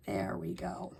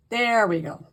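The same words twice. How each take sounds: First: Soft whispered there we go; whispered relief. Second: Said in the usual way. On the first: Real, not acted. Crafter fixing the stuck piece for viewers, whispered. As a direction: breathe it out as it finally sticks.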